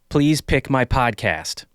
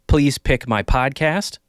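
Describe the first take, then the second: First: The p sounds are clean without air pops. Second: Bursts of air pop on the p sounds. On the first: "with the popper stopper"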